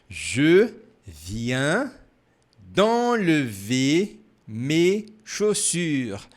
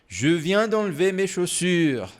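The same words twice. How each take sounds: First: The sentence is spoken slowly. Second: The sentence is spoken fast. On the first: "Mais devagar" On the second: "Um pouco mais rápido agora"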